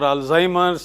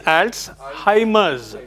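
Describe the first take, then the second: First: The first syllable is not said as 'alts'. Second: The first syllable is said as 'alts'. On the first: The speaker calls it wrong. "It is not" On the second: The speaker calls it right. "Alts, A L T S"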